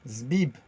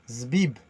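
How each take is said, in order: The two takes are said the same way.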